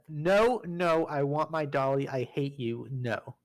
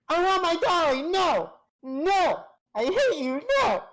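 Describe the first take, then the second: First: It is said in the speaker's normal voice. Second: It is said in a put-on accented voice.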